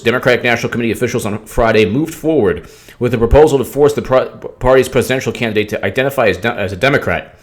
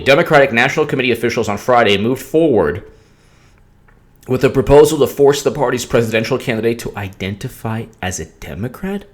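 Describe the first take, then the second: First: It is read at normal speed. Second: It is read slowly.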